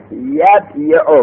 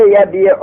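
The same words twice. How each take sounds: First: یبیع slowly as yab-yi-u, consonant y sounded; uncontracted original form. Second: Said in the usual way. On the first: Shown as a demonstration. Teacher showing students the root form, یبیع slowly as yab-yi-u. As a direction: split یبیع into yab, then yi-u. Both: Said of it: "اصل یبیع، یبیع بود".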